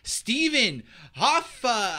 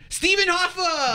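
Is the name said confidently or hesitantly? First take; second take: hesitantly; confidently. First: The name is said without much conviction. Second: The name is said with strong conviction. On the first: The speaker calls it wrong. "You just didn't say it with enough conviction" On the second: The speaker calls it right. "Let me try that again"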